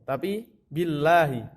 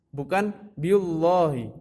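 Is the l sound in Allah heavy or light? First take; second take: light; heavy. First: The l in Allah sounds light and thin. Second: The l in Allah sounds heavy and dark. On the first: The speaker calls it right. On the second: The speaker calls it wrong.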